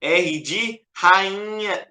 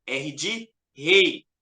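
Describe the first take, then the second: First: R de rainha drawn out slowly; slow mock wrong answer. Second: Slow, deliberate R de rei; teacher's careful correction; corrected answer. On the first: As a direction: say R de rainha slowly as the mistaken guess. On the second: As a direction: spell out R de rei slowly as the right answer. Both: Shown as a demonstration. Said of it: "Não, não, não, não".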